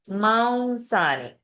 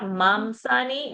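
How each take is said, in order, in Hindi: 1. स से पहले की नासिका ध्वनि w जैसी लगती है। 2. स से पहले की नासिका ध्वनि m जैसी लगती है। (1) "Anuswar will become wa" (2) "South India will try to say mamsani"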